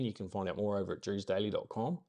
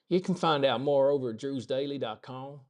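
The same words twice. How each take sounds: First: It is said in a natural New Zealand accent. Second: It is said in a put-on American Southern accent.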